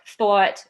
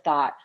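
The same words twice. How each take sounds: First: The vowel is a New York style aw. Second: The vowel is a standard American one. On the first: "the typical New York thought" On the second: "instead of thought"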